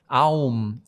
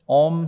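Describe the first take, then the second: First: The vowel sounds like 'ow', as in pain. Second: The vowel sounds like a long 'oh'. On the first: It sounds like a cry of pain. "Aum sounds like I hurt my elbow" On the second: It sounds like the basis of reality. "Om sounds like the, the basis of reality"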